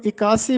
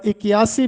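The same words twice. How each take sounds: First: इक्यासी said without the y, "i-KAA-si"; इक्यासी as three syllables, "i-kaa-si"; variant pronunciation. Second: इक्यासी with the y glide, "i-ki-YAA-si"; इक्यासी said fully as "i-ki-yaa-si"; variant pronunciation. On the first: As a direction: drop the glide in इक्यासी, "ikaasi". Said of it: "इसको इक्यासी भी बोला जाता है". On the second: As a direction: sound the y in इक्यासी, "ikiyaasi". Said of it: "दोनों तरह से मुस्तामल है". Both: Shown as a demonstration.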